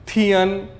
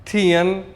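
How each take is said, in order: No difference in how they are said.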